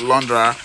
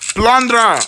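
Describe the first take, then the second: First: The name begins with an l sound. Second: The name begins with a p sound. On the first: The speaker calls it wrong. "not Lundra" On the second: The speaker calls it right. "I actually pronounced it right this time"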